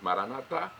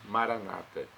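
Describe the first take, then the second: First: The stress falls on the last syllable. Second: The stress falls on the second-to-last syllable. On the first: This is how Catholics say it. "nós pronunciamos Maranatá" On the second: This is how Protestants say it. "eles Maranata"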